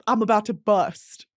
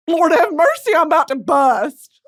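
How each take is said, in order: First: Said in the usual way. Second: "I'm about to bust" said louder and higher; louder swooning cry. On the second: Real, not acted. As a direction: cry it out in overheated joy. Swooning over period romance.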